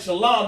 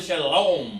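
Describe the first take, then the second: First: It is said with a plain Hebrew pronunciation. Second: It is said with a Yiddish-style pronunciation. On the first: The speaker calls it right. "Instead of saying shalom" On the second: The speaker calls it wrong. "they shalom"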